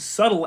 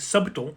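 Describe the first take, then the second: First: The word is said the usual way. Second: The word is said as it is spelled.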